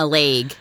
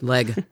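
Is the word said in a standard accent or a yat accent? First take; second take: yat accent; standard. First: The word is said in a local yat accent. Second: The word is said in a standard accent. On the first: The speaker calls it wrong. "this kind of yat accent that we were all exposed to" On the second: The speaker calls it right. "it's leg"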